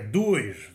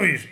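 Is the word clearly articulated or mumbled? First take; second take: clear; mumbled. First: The word is pronounced clearly and carefully. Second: The word is mumbled and sloppily pronounced. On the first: The speaker calls it right. "é 2" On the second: The speaker calls it wrong. "Não é 2"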